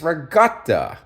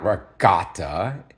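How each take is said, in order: First: "ricotta" with the K softened toward a G; "ricotta" said higher, the proper Italian way; "ricotta" with a G in your mind; Italian pronunciation. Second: "ricotta" the plain American way, with a hard K; "ricotta" said the way most people say it; "ricotta" as the wrong version; wrong pronunciation. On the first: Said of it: "with a G in my mind". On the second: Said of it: "It's not ricotta". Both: Shown as a demonstration.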